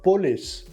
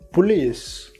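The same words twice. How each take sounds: First: The first vowel sounds like 'oh'. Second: The first vowel sounds like 'oo'. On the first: The speaker calls it wrong. "It is not police" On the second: The speaker calls it right. "but police"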